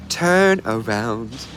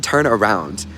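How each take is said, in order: First: Slow, drawn-out command. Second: Said in the usual way. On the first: Shown as a demonstration. Viewer asked for it, so a drawn-out "Turn around". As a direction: stretch "Turn around" out slowly, voice rising at the end. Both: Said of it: "Someone said".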